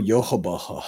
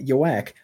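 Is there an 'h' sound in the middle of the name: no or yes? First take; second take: yes; no. First: The name is said with a middle 'h' sound. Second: The name is said without a middle 'h' sound. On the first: This is how the name is said in the show. "But then they go Yohabaha" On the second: This is how the name looks in the subtitles. "it just is spelled like Yowak"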